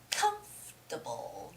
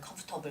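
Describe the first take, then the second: First: The first syllable is louder and longer. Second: All syllables are said with even stress. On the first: The speaker calls it right. "there's a stress on the first syllable" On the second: The speaker calls it wrong. "they ignore the stress"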